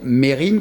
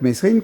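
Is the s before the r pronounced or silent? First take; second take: silent; pronounced. First: The s is silent before the r. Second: The s is pronounced before the r. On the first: It is the true pronunciation. "on devrait dire Mérine" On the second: It sounds punchier. "je préfère Messrine parce que ça claque plus"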